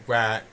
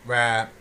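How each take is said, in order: Both takes have the same delivery.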